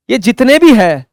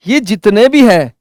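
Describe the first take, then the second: No difference in how they are said.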